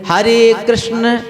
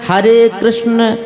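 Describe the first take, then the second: The two takes are said the same way.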